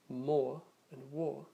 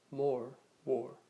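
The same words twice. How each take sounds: First: British "more and war" with long or vowel and silent r; British style accent. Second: North American "more, war" with the r firmly sounded, louder; North American accent. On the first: Teacher matching vowels in a British style accent, British r-less "more and war". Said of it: "in a British style accent". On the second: Teacher comparing North American pronunciation, loud American r in "more, war". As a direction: curl the r at the end of "more, war", American style. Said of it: "North American style accents". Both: Shown as a demonstration.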